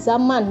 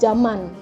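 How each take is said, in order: First: The word begins with a z sound. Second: The word begins with a j sound. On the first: The speaker calls it right. "Z itu bacanya zaman" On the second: The speaker calls it wrong. "bukan zaman"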